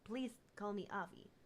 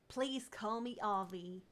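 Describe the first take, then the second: First: It is spoken with a Russian accent. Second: It is spoken with a Texan accent. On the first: "Maybe maybe I need to drop the Russian accent" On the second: "gotta make him Texan now"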